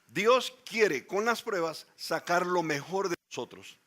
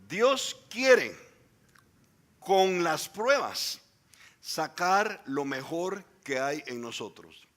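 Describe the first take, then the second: First: It is said at a normal speed. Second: It is said slowly and deliberately.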